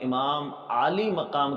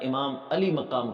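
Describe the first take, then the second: First: The first vowel of Aali is long. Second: The first vowel of Aali is short. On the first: The speaker calls it right. "इमाम आली मकाम के बजाय" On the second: The speaker calls it wrong. "इमाम अली मकाम कहता है"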